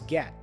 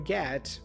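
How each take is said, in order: First: The final T is stopped, not released. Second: The final T is fully released.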